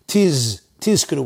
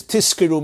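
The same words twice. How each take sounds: First: Tizkiru with a long voiced Z; clear zayin in tizkiru. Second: Tizkiru pronounced as tiskiru. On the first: Teacher insisting on clarity, voiced Z in tizkiru. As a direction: buzz the Z in tiz, then tizkiru. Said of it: "with a zayin". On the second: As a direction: use S for the Z in tizkiru. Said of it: "means you should get rewarded". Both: Shown as a demonstration.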